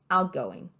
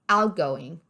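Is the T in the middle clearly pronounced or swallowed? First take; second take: swallowed; swallowed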